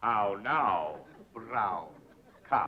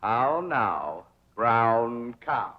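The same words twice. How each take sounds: First: "How now, brown cow?" said softer and fading; soft, round vowels on the repeat; elocution drill, repeated softer. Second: "How now, brown cow?" with round, drawn out vowels; over-enunciate each word; teacher's careful diction drill; elocution exercise. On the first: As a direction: echo the drill, dying away. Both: Shown as a demonstration. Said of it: "diction and intonation".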